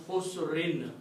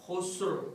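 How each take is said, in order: First: Khusrin said with the full -in ending; connected form. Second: Khusr said with no final noon, cut off at the r; pausal form. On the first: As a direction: carry on through khusrin, sounding the noon. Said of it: "if you want to continue, you can pronounce". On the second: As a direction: stop on khusr, drop the ending. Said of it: "if you stop ... you don't pronounce the sound of noon". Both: Shown as a demonstration.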